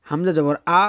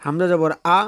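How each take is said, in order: Both takes have the same delivery.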